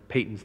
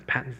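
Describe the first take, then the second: First: "Payton's" said PAY-ton with a long ay, as in "pay"; "Payton's" with the long ay, set against "Patton's"; Payton for the missionary. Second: "Patton's" said PAT-ton with a short a, as in "pat"; "Patton's" with the short a, quietly set against "Payton's"; Patton for the general. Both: Shown as a demonstration. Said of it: "It's not Patton".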